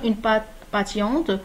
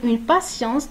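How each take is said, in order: First: The middle consonant is a t sound. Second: The middle consonant is an s sound. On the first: The speaker calls it wrong. "on ne va pas dire" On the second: The speaker calls it right. "il faut dire une patience. Donc, le son, c'est le son S"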